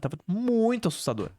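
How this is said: The word muito gets an emphatic tone.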